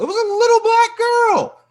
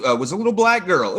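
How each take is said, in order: First: Very high, squealing mock fan; shrill mock outrage; outraged fan impression. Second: Said in the usual way. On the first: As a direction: squeal it like a scandalised nerd. Mocking outraged fans.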